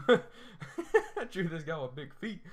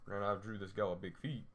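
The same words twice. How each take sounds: First: Slow, laughing repeat, higher and louder. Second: Said in the usual way. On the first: Shown as a demonstration. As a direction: say it again through a laugh.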